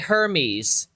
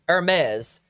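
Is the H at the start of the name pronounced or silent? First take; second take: pronounced; silent. First: The initial H sound is pronounced. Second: The initial H sound is silent. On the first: This is the usual English pronunciation. "we say Hermes in English" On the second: This is the ancient Greek pronunciation. "in ancient Grecian, it's Hermes. The H is silent"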